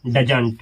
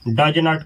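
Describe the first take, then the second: First: It is said as one contracted word. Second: It is said as two separate full words. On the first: "मिला करके डजंट बोला जाता है" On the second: "डज नॉट को मिला करके डजंट बोला जाता है"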